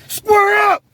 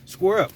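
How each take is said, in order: First: It is yelled loudly and aggressively. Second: It is said in a calm, casual way.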